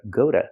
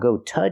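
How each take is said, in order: First: The T is a quick, soft D sound. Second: The T is a clear, full T sound. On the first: The speaker calls it right. "but go to. ... pronounces d" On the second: The speaker calls it wrong. "Not go to jail"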